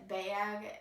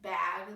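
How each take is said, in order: First: The word is said in a Wisconsin-like accent. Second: The word is said in a standard accent.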